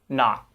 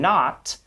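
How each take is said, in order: First: The final T is held, not released. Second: The final T is fully released. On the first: "they tend to say" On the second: "rather than"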